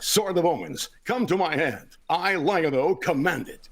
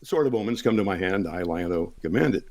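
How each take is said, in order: First: It is said in a bold, energetic, dramatic voice. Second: It is said in a plain, conversational voice. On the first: This is how it sounds on the broadcast show. "But on television" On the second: This is how it sounds in everyday talk. "as I'm sitting here talking to you guys"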